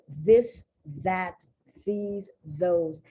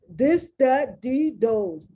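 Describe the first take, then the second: First: The th is said as a th sound. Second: The th is said as a d sound. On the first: "instead of saying" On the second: "they go"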